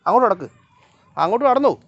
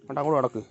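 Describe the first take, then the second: First: Loud, high call to a dawdling dog. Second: Said in the usual way. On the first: Real, not acted. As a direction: shout it across the yard, higher and louder. Shouting at the dog to walk.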